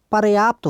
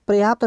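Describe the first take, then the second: First: पर्याप्त said par-yaapt; par- opening. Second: पर्याप्त said as प्रयाप्त; pra- opening on पर्याप्त; misplaced r. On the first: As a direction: put the r after the vowel in पर्याप्त. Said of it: "पर्याप्त होता है". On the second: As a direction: run p and r together at the start of पर्याप्त. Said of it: "पर्याप्त नहीं होता". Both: Shown as a demonstration.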